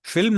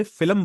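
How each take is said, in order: First: फिल्म said as one syllable, fil-m, with no vowel between l and m; correct English film. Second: फिल्म said as fi-lam, with an extra vowel slipped between l and m; Urdu-style filam. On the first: Teacher showing students the correct English film. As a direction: say फिल्म tight, no extra vowel. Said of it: "हम इसको फिल्म नहीं बोलते". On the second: Teacher imitating how Urdu speakers say film. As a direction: stretch फिल्म into two syllables, filam. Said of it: "फिल्म बोलते हैं". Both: Shown as a demonstration.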